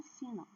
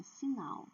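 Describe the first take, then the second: First: Final stressed on FI, with weak -nal; wrong stress. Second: Final with a strong -NAL; stress on last syllable. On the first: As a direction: misstress final on its first syllable. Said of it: "não é final". (final com a primeira sílaba forte) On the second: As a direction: lean on the second syllable of final. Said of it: "é final". (final com a última sílaba forte) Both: Shown as a demonstration.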